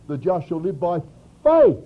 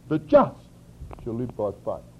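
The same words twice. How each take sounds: First: The word 'faith' carries the emphasis. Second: The word 'just' carries the emphasis. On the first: The point is that it comes through faith. "If we read it from Romans, ... we'd read it like this" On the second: The point is being made righteous. "reading it from Galatians, we would read it like this"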